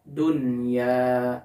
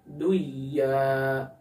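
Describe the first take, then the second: First: The n sound is pronounced clearly before the y. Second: The n sound is merged into the y. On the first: The speaker calls it right. "Contohnya dunya" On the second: The speaker calls it wrong. "Maka jangan dibaca duya"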